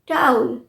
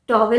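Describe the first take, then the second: First: The first vowel is an 'ow' sound. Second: The first vowel is an 'aw' sound. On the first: The speaker calls it right. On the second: The speaker calls it wrong. "टॉवल नहीं है"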